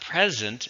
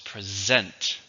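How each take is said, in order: First: The stress is on the first syllable. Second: The stress is on the second syllable. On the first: The speaker calls it wrong. "So it's not present" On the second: The speaker calls it right. "This one has a stress on the second syllable"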